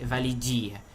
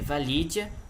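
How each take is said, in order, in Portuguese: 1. O i antes da vogal final é tônico. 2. O i antes da vogal final é átono. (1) "não é vali, validia" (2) "o i não é tônico"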